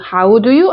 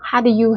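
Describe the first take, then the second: First: The vowel in how glides fully. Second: The vowel in how is a short ha. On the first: The speaker calls it wrong. "안 하고" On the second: The speaker calls it right. "했네요"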